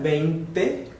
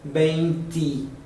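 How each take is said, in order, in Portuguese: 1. A palavra termina com E fechado. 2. A palavra termina com som de I. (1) "com E no final" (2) "porque tem um I"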